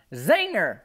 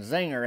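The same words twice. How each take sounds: First: High, loud giggly Zinger; gleeful yell. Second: Said in the usual way. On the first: Retold or imitated. Granny crowing at the boy after her prank, loud and high. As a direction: crow it like a prank landed. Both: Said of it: "She's yelling".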